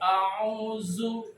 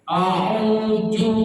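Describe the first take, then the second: First: The middle consonant is a z sound. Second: The middle consonant is a j sound. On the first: "nggak dikeluarkan wa itu lidahnya, jadi zai, auzu, salah" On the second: "parah ini"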